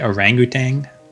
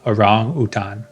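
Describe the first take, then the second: First: It is pronounced the usual English way. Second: It is pronounced the Indonesian way. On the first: "in English people say orangutan" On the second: "the pronunciation from Bahasa Indonesia"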